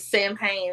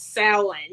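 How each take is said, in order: First: It is said as spelled, Sam Hain. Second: It is said unlike its spelling, not Sam Hain. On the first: The speaker calls it wrong. "makes me cringe when he says Sam Hain" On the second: The speaker calls it right. "That's Samhain"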